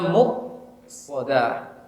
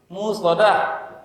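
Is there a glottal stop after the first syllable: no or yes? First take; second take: yes; no. First: A glottal stop follows the first syllable. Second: The glottal stop after the first syllable is dropped. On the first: The speaker calls it right. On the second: The speaker calls it wrong. "Hamzah sering apa?"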